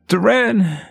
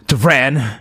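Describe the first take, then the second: First: The name is cried out in a pained voice. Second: The name is shouted in an angry voice. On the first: "You hear him calling your name in pain" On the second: "You hear anger in his voice"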